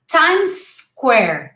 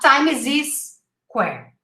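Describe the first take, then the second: First: The two words join with no extra syllable. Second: An extra syllable is inserted between the words. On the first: The speaker calls it right. "We say Times Square" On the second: The speaker calls it wrong. "You're adding an extra syllable there"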